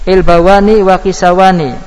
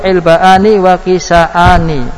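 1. Bunyi w menggantikan hamzah. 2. Hamzah tetap ada di tengah. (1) "boleh menggantinya menjadi wawu" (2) "membiarkan hamzah tanpa ada perubahan"

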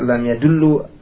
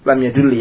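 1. Kata kerja ini berakhir dengan vokal u. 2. Kata kerja ini berakhir dengan vokal i.

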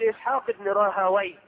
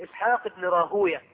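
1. ينتهي الاسم بصوت -wayh. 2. ينتهي الاسم بصوت -uyah. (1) "وغيرهم يقول" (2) "والمحدثون ينطقونها هكذا"

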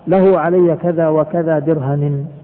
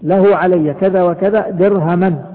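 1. تنتهي الكلمة الأخيرة بصوت -i. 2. تنتهي الكلمة الأخيرة بصوت -an. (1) "بالجر" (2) "في النصب"

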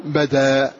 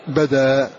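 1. تنتهي بحركة طويلة. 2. تنتهي بحركة طويلة.

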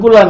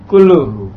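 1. Kata ini berakhir dengan vokal 'a'. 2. Kata ini berakhir dengan vokal 'u'. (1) "Ada yang membacanya kulla amin pakai fathah" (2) "Tapi di sini sih memilihnya kullu"

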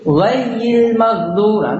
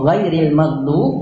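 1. Kata pertama diucapkan tanpa bunyi r. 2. Kata pertama diucapkan dengan bunyi r. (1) "Ini salah besar, salah besar" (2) "Yang arti sebenarnya itu ghayril maghdub"

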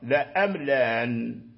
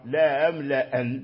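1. الهمزة الثانية فقط مسهَّلة. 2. الهمزة الأولى فقط مسهَّلة. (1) "تحقيق الأولى وتسهيل الثانية" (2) "تسهيل الأولى وتحقيق الثانية"

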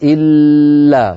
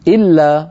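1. صوت l ممدود ومطوّل. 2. صوت l قصير بلا إطالة. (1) "لا يقال إلا، فاللام ليست من أماكن التطويل" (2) "ما فيها تطويل ولا مط"

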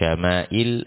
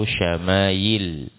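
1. Bunyi tengahnya adalah hamzah. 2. Bunyi tengahnya adalah bunyi y. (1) "pakai hamzah" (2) "atau ya"

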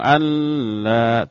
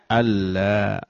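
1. N ditahan dengan dengung sengau. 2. N melebur sepenuhnya ke dalam bunyi l. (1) "Atau dengung"

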